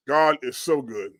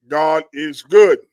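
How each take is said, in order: First: Said in the usual way. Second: GOOD drawn out and loud; slow "God is good", landing hard on "good"; emphatic praise. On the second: Real, not acted. Agreeing with a church member's comment, emphatic praise.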